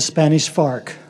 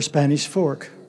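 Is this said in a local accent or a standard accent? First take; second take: local accent; standard accent. First: The name is said in a local accent. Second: The name is said in a standard accent.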